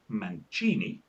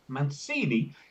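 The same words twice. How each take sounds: First: The name is pronounced the Italian way. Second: The name is pronounced the Brazilian way. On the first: "an Italian whose name was pronounced Mancini" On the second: "a Brazilian whose name was pronounced Mancini"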